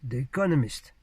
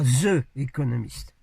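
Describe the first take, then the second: First: The word 'the' starts with a d-like sound. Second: The word 'the' starts with a z sound. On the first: The speaker calls it right. "c'est un D, comme ça" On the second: The speaker calls it wrong. "Prononcez pas l'anglais avec des Z"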